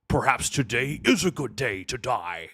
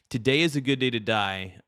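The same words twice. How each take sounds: First: Stern Klingon warrior declaration; Worf. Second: Said in the usual way. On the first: Acted. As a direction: declaim it like a proud Klingon officer. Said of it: "I could do a good Worf impression".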